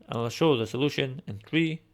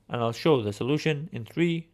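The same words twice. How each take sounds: The two takes are said the same way.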